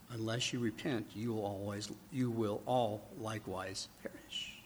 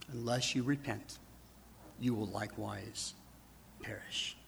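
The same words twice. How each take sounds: First: Hushed warning. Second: Soft whispered warning fading out; hushed warning. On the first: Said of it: "Then he says". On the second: Jesus warning the congregation to repent, hushed whisper. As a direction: let it fade softly to a whisper on perish. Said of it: "say the same thing". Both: Retold or imitated.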